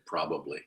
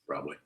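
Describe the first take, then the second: First: Every syllable of the word is pronounced. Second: One middle syllable is dropped from the word. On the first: The speaker calls it right. "Or I should say probably" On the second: The speaker calls it wrong. "I quite often drop that syllable out of probably"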